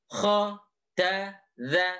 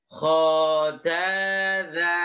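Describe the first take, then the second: First: The syllables are short with pauses between them. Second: The syllables are drawn out with long vowels. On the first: The speaker calls it right. "dipisah atau dipotong ... ini lebih bagus daripada dipanjangkan" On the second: The speaker calls it wrong. "Ini salah ... kok dipanjangkan"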